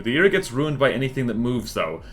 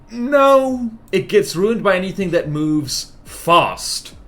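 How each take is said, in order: First: Said in the usual way. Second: High, loud objection, then slow stress on "fast"; drawn-out, higher delivery with "fast" set apart and hit hard. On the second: Real, not acted. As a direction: correct them emphatically, landing "fast" slowly and firmly. Corrects the claim, adding one word.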